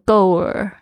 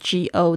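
First: The word ends with a curled R-like sound. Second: The word ends with no L sound. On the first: "很多同学呢会不小心卷起来，就变成go 耳" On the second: "如果只有go 然后舌头没有动作的话呢，就会变成go"

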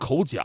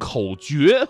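First: 角 takes the reading used for animal horns. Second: 角 takes the reading meaning contest or rivalry. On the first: The speaker calls it wrong. "不叫发生口角" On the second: The speaker calls it right. "而应该叫做发生口角"

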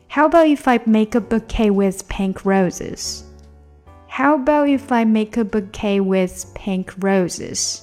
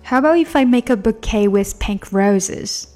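First: The sentence is said at a slower pace. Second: The sentence is said at a faster pace.

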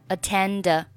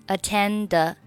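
Both takes have the same delivery.

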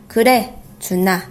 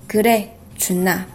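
No difference in how they are said.

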